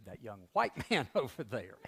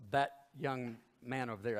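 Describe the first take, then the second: First: White stressed, a laugh breaking after it; correcting yourself with a chuckle on white. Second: Said in the usual way. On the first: Retold or imitated. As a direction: lean on the word white and laugh through it. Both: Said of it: "Actually, she said".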